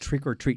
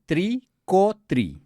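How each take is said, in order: First: It is said with a plain American accent. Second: It is said with a Latino Spanish accent. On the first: The speaker calls it right. "Mom, no, it's" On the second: The speaker calls it wrong. "She would say"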